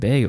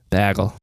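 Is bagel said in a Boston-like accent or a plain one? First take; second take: plain; Boston-like. First: The word is said in a plain accent. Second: The word is said in a Boston-like accent. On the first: This is how the speakers' own group says it. "We say bagel" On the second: This is how some other people say it. "Say the other one again. ... That's more Boston"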